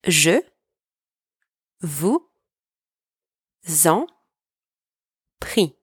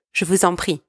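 First: "Je vous en prie" said word by word with long pauses; broken down word by word. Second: Said in the usual way. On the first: Shown as a demonstration. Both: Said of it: "Let me just break this one down for you".

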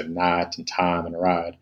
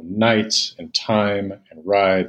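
First: Imitated Southern accent, night, time and ride said as "naht", "tahm", "rahd" with a flat ah. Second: Said in the usual way. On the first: Lecturer imitating how people mock Southerners, a light Southern accent. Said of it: "when people imitate Southerners". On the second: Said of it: "replacing consistently the I sound with the monophthong ah sound".

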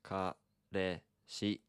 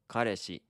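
First: Kareshi said very slowly syllable by syllable; slow model. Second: Said in the usual way. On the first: Shown as a demonstration. Teacher modelling Kareshi slowly after a stumble. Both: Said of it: "Ka-, ka".

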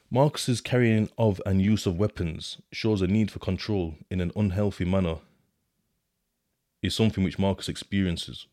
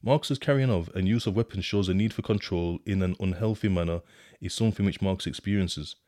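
First: Reading the report. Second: Rereading in disbelief. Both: Shown as a demonstration.

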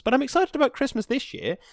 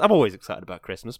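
First: "excited" lifted much higher with real glee; more excited. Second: Said in the usual way. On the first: Real, not acted. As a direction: let the word "excited" jump up high.

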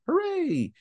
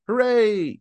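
First: Hooray! squeaked much higher; high mock cheer. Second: Sarcastic little cheer; mock cheer. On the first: Repeated cheer, pitched higher. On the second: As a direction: cheer it flatly, half-joking. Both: Real, not acted.

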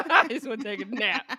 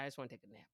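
First: Laughing. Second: Soft, low, tired mumble; weary, quiet. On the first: Real, not acted. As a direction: repeat it through a loud laugh, higher. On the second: Retold or imitated. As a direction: say it like you could fall asleep.

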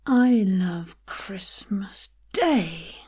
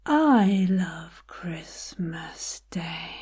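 First: Slow line, then punch "Day"; stress on DAY. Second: "I" stretched and pitched up, rest falling away; stress on I. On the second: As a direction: lean slowly on the opening "I". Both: Shown as a demonstration. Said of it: "Find a different place to put the emphasis".

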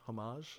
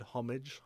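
First: "homage" said French-style, oh-MAHZH, softer; soft zh ending on "homage"; French pronunciation. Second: "homage" said HOM-ij; English j ending on "homage"; anglicised pronunciation. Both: Shown as a demonstration. Two pronunciations offered in turn.

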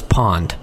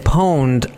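First: "pond" said with a short o, no long o; mispronounced pwned. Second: "pwned" said like "poned", with a long o; "pwned" as "owned" with a p in front; correct pronunciation. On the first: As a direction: say "pond" to rhyme with fond. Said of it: "I always thought it was pond". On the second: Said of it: "when they said pwned". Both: Shown as a demonstration.

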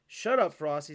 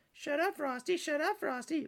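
First: Said in the usual way. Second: High-pitched taunting mimicry; childish, singsong mockery; mocking. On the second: A narrator's reading. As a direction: parrot it back in a silly high voice. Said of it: "mocked Frosty".

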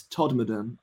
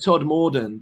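First: Todmorden with the middle reduced, TOD-muh-dun; local pronunciation. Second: Todmorden with a full, stressed "MOR" in the middle; wrong pronunciation. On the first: Passing on a local's correction, Todmorden said as TOD-muh-dun. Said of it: "I've been told by a". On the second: Owning up to a local's correction, Todmorden mispronounced with a full "MOR". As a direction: say Todmorden as spelt, TOD-MOR-den. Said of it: "but it's Todmorden, I've been told". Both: Shown as a demonstration.

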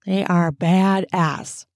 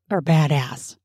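First: Slow, stretched "They are badass"; emphatic. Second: Said in the usual way. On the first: Real, not acted. Host hyping the audiobook characters, slow emphatic "They are badass".

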